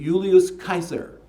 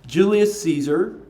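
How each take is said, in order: First: Caesar begins with a hard K sound. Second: Caesar begins with a soft S sound. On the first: This is the original Latin way of saying the name. The speaker calls it right. "it should be Julius Caesar. Kaiser is the correct Roman pronunci- or Latin pronunciation" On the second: This is the English way of saying the name. The speaker calls it wrong. "how we've learned to mispronounce his name all this time"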